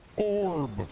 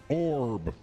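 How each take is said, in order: First: The voice effect is pitched slightly up. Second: The voice effect is pitched slightly down. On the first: The speaker calls it right. "as I've got it now, this is my orb" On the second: The speaker calls it wrong. "if I pitch down instead of up, we get orb. It doesn't have the energy"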